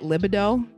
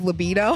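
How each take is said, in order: First: Libido is said as a spelling-based misreading. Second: Libido is said with its standard pronunciation. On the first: The speaker calls it wrong. "I called it libido" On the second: The speaker calls it right. "Instead of libido"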